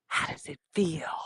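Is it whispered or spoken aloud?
whispered. It is whispered for dramatic effect.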